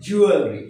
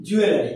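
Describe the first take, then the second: First: "জুয়েলারি" said as "JU-el-ri", no "la"; correct pronunciation. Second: "জুয়েলারি" said as "ju-e-la-ri", four syllables; common mispronunciation. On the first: Teacher giving learners the proper form, "জুয়েলারি" as JU-el-ri. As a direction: say "জুয়েলারি" running l straight into "ri". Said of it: "এর উচ্চারণ হবে". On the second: Teacher showing what we usually say, "জুয়েলারি" as ju-e-la-ri. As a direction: say "জুয়েলারি" with a full "la". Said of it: "কি বলি?". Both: Shown as a demonstration.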